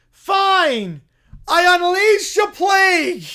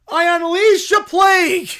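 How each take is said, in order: First: Loud, booming curse; shouted curse. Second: Loud mock-grand curse; grand proclamation. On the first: Acted. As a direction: bellow the plague. Bear casts plague again. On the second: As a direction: cast the plague like a prophet. Bear casts a plague.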